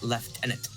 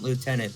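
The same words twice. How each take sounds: First: It is said the British way, lef-tenant. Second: It is said the American way, loo-tenant. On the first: The speaker calls it right. "if you gotta go with the British thing, ... but lieutenant" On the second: The speaker calls it wrong. "not lieutenant"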